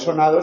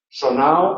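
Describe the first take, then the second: First: The d between the vowels is pronounced. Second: The d between the vowels is dropped. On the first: "en lugar de" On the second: "sería un caso de síncopa. Síncopa de la D en posición intervocálica"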